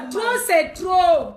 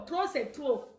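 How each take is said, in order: First: Loud, slow, drawn-out protest; emphatic outcry. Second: Softer, dropped-back protest; subdued repeat. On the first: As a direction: belt it out slowly as a slogan. Repeats slogan, first emphatic take. (cri de protestation fort et traînant) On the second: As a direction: let it fall away softly. Repeats slogan, softer second take. (répétition plus basse, retombée) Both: Real, not acted.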